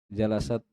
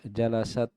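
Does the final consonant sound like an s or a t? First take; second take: s; s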